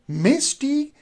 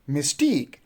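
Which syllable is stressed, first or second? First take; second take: first; second. First: The stress is on the first syllable. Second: The stress is on the second syllable. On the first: The speaker calls it wrong. "If we do say mystique, then you are putting the stress on the first syllable, which is wrong" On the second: The speaker calls it right. "you will say mystique"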